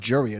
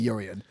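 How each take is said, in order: First: The name begins with a J sound. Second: The name begins with a vowel sound. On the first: The speaker calls it wrong. "It's not Jurian" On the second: The speaker calls it right. "I'm guessing that's a silent J"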